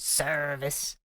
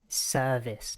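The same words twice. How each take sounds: First: The R sound after the vowel is pronounced. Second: The R sound after the vowel is dropped. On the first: The speaker calls it wrong. "not service" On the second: The speaker calls it right. "It's all in the R's"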